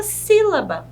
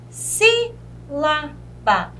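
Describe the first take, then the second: First: Said in the usual way. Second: "Sílaba" very slow, split sí, la, ba; long pauses inside "Sílaba", strong sí; syllable by syllable. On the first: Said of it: "a própria palavra sílaba". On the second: Shown as a demonstration. Teacher showing a proparoxytone, "Sílaba" in three slow beats. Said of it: "a tonicidade está localizada na antepenúltima".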